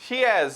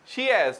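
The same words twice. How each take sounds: Both takes have the same delivery.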